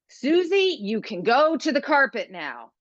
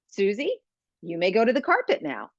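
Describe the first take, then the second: First: It sounds annoyed and judgmental. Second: It sounds upbeat and non-judgmental.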